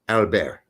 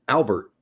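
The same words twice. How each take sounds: First: The name is said the French way. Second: The name is said the American way.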